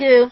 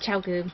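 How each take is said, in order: First: The first syllable sounds like 'chai'. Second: The first syllable sounds like 'chow'. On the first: The speaker calls it wrong. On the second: The speaker calls it right.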